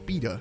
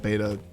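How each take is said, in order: First: It is said in a British accent. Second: It is said in an American accent.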